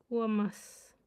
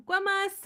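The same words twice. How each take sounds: First: Said in the usual way. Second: Put-on Guamas blurted higher and louder like a small child; like a four-year-old. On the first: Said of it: "I sound like a f-, four-year-old". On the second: Mocking her own attempt like a little kid saying grandma. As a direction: mimic a toddler saying grandma. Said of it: "four-year-old trying to say grandma".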